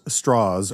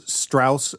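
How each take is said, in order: First: Strauss with an "aw" vowel, as in straw; name pronunciation contrast. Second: Strauss with an "ow" vowel, as in house; name pronunciation contrast. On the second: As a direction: say Strauss as "Strowss", ending in a clear s. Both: Shown as a demonstration. Host comparing the film's two names, pronunciation contrast.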